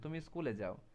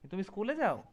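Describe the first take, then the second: First: The pitch stays level and falls at the end. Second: The pitch rises on the last word. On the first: It is a plain statement. "Normal থাকে, তার মানে কি আমরা একটা assertive sentence বলছি" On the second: It is a question. "শেষ শেষ জায়গায় কি হচ্ছে, টোনটা আপ থাকছে"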